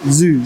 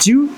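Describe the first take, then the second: First: The word begins with a z sound. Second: The word begins with a j sound. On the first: The speaker calls it right. "Now I can say it perfectly" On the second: The speaker calls it wrong.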